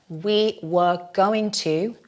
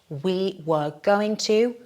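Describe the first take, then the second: Both takes have the same delivery.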